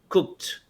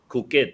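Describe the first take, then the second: First: The word ends with a short t sound. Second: The word ends with an extra 'id' syllable. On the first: The speaker calls it right. "imagine there's a T" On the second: The speaker calls it wrong. "Cook it, no"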